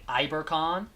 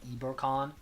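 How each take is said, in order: First: It is said with an English accent. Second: It is said with a Spanish accent. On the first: "if I'm saying it in English" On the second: "if I'm saying it in like a in like a Spanish accent"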